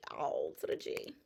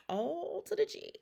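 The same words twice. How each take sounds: First: Whispered echo. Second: Playful high call. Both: Pretend. Playful wordplay repeated.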